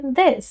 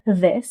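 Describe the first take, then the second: First: "this" with a light D-like TH; touch the teeth lightly from behind to begin "this"; light dental start on "this"; tongue behind teeth. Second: "this" begun with a V-like sound; wrong TH. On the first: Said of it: "टंग को teeth के पीछे lightly place करके". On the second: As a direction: start "this" loosely, almost as "vis". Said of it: "not this". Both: Shown as a demonstration.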